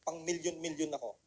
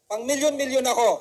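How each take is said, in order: First: Soft low murmur to oneself; quiet. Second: Louder and higher, proud; loud declaration. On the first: Speaker to audience, quiet first try. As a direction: say it softly under your breath. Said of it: "Sabihin mo". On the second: Speaker urging audience, loud proud affirmation. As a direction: say it out loud and mean it. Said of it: "Sabihin nyo sa sarili nyo". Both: Shown as a demonstration.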